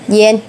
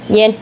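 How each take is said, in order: First: The vowel is said full, as a standalone syllable. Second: The vowel is said short, as in a combined syllable. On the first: "Khi đứng một mình thì cái chữ yên này" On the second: "khi đứng với người ta thì nó sẽ biến thành âm ngắn yên"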